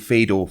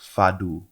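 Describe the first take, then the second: First: It uses the speaker's usual English-style pronunciation. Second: It uses the pronunciation a Portuguese speaker taught. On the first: The speaker calls it wrong. "I've been saying fado for ages" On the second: The speaker calls it right. "it's pronounced like fado"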